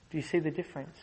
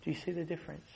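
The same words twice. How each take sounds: First: Said in the usual way. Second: "Do you see the difference?" asked again much softer; preacher repeats it softly to the congregation; hushed repeat. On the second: Shown as a demonstration. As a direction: let the question fall to a near hush. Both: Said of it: "repeated question".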